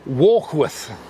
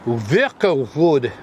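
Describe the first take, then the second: First: The name is said in its usual modern form. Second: The name is said in an older, rolling form. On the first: "we're in Warkworth" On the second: "to use the right pronunciation"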